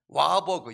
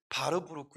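First: It is pronounced English style, starting with W. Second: It is pronounced German style, starting with V. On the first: "영어식으로 읽으면 와버그라고 하지만은" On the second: "독일식 발음으로는 바르부르크"

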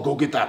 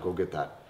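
First: The request sounds harsh and demanding. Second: The request sounds relaxed and casual. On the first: It comes across as mean and too much. The speaker calls it wrong. "super harsh with my tone" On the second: It comes across as easygoing and friendly. The speaker calls it right. "You have to be relaxed"

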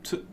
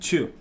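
First: The word begins with a plain 't' sound. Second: The word begins with a 'ch' sound. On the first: The speaker calls it right. "se dice tu" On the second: The speaker calls it wrong. "Claro que no se dice chu"

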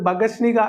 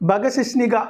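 First: The word drops the 'shi' syllable in the middle. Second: The word keeps the 'shi' syllable in the middle. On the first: The speaker calls it wrong. "ബഗശ്നിക എന്ന് തെറ്റിച്ച് പറയുന്ന" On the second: The speaker calls it right. "അത് അങ്ങനെ തന്നെയാണ് പറയേണ്ടത്"

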